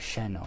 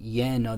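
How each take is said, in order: First: The word begins with an sh sound. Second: The word begins with a y sound. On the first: This is another variant some speakers use. "some of them actually will do an sh sound" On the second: This is the most common, safest pronunciation. "it's normally Y sound"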